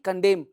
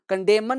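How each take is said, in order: First: The word ends on m with no n. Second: The final n is pronounced after the m. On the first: The speaker calls it right. "जहां पे sign दे दिया हूं उसको आपको चुप रखना है" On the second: The speaker calls it wrong. "कंडेमन नहीं"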